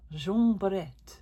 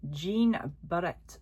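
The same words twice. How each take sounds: First: JEAN BARRETTE said slowly in a French accent. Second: Said in the usual way. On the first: Shown as a demonstration. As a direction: give the name an amateur French pronunciation. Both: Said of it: "a bit more of a French accent".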